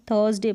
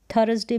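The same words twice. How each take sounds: First: थर्सडे with the r silent; correct THURSDAY pronunciation. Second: थर्सडे with a full r and extra vowel; wrong THURSDAY pronunciation. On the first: Teacher correcting the misreading for learners, r-less थर्सडे. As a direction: say थर्सडे as two syllables, "thuhs-day". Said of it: "थर्सडे पढ़ेंगे". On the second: Teacher rejecting the misreading for learners, three-syllable थर्सडे. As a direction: say थर्सडे as "tha-ras-day". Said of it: "थर्सडे बिल्कुल नहीं". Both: Shown as a demonstration.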